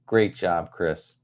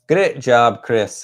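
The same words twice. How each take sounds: First: Said in the usual way. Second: Louder, playful mock Scottish accent. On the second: Host cheering a viewer named Chris, in a playful Scottish accent. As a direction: praise him with a light put-on Scottish accent. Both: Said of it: "I always have to talk about Chris in a Scottish accent".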